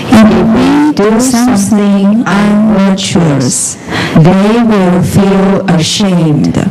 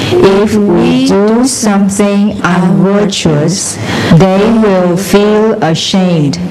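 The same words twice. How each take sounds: No difference in how they are said.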